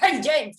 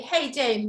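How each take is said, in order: First: It is said in an angry tone. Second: It is said warmly, with a smile.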